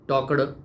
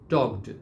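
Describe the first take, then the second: First: The ending is a heavy d sound. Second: The ending is a soft t sound. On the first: The speaker calls it wrong. "ऐसा नहीं।" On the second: The speaker calls it right. "ट करना है, ड नहीं।"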